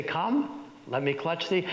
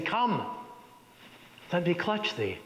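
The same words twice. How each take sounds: First: Macbeth looking at the audience. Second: A high reaching "Come", then a quieter "let me clutch thee"; Macbeth addressing the dagger. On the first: Macbeth turns to the audience, lightly voiced. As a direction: share the moment with the audience. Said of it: "looking at the audience". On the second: Macbeth calls to the imagined dagger, high then hushed. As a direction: coax the dagger toward you. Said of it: "personifies this dagger by saying". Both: Acted.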